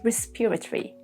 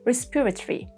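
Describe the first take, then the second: First: British accent, the o in the ending is silent. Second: British accent, the o in the ending is silent.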